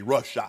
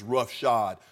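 First: The last syllable is not pronounced as 'shod'. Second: The last syllable is pronounced as 'shod'. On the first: This is how the speaker's own community says it. "We say roughshod" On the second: This is how people in Dallas say it. "They say Dallas. When yeah. somebody runs yeah. over you, they say it's roughshod"

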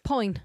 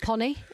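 First: The first syllable is one gliding vowel, 'poin'. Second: The first syllable has two vowels, like 'pony'. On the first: The speaker calls it right. "it's poin" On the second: The speaker calls it wrong. "it's not pony"

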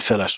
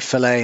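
First: The word is said the non-American way. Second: The word is said the American way. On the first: The speaker calls it right. "instead of fillet" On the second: The speaker calls it wrong. "they say fillet"

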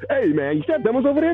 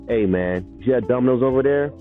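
First: It is said in an unserious, not deadpan tone. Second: It is said in a serious, deadpan tone.

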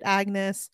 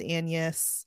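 First: The g is sounded in the name. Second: The g is silent, like Annis. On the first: The speaker calls it wrong. "I would read it Agnes" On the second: The speaker calls it right. "but I know it's Agnes"

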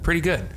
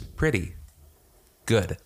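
First: The two words run together as one phrase. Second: Each word is said separately with a break.

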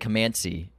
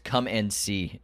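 First: The words are blended into one word. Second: The words are said as three separate words. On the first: The speaker calls it wrong. "It sounded like you said Comancy" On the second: The speaker calls it right. "It's Come and See"

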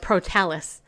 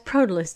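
First: The name is said in a snooty, posh way. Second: The name is said in a plain, ordinary way.

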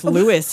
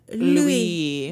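First: The name is said in a casual English way. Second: The name is said with the French pronunciation. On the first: "We're very casual with Louis here" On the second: "The French pronunciation"

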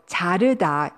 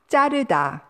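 First: The first consonant is plain, not tense. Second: The first consonant is tense and stronger. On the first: This is the standard form. The speaker calls it right. "자르다 is the correct pronunciation" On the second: This is the casual everyday form. The speaker calls it wrong. "with a tense consonant 자"

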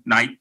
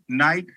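First: The name is said curtly, with attitude. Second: The name is said warmly, with affection. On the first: The speaker calls it wrong. "I had a little attitude. You can't say it like that" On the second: The speaker calls it right. "that was better. Okay. That was sweet"

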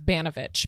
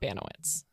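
First: The name has a Polish pronunciation. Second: The name has an anglicized pronunciation. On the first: The speaker calls it right. "or it's Baniewicz" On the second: The speaker calls it wrong. "but it's not Baniewicz"

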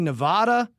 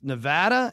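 First: It is pronounced in a Spanish-like way. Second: It is pronounced in an anglicized way. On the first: The speaker calls it wrong. "He says I say Nevada" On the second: The speaker calls it right. "and it's Nevada"

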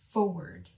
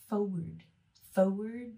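First: It has the usual standard pronunciation. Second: It has a regional family pronunciation. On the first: This is the usual way to say it. "instead of forward" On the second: This is how some families in one region say it. "Tyler's family would say forward"

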